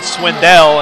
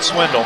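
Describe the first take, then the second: First: The name ends with a clear 'dell' sound. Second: The name ends with a reduced 'dle' sound. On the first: The speaker calls it right. "I pronounce it Swindell" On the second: The speaker calls it wrong. "and not Swindle"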